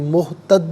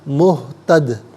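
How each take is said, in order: First: The final d stops flat without an echo. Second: The final d ends with an echoing bounce. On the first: The speaker calls it wrong. "मुहतद नहीं" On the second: The speaker calls it right. "कलकला होगा, यानी आवाज़ लौटती हुई महसूस होगी"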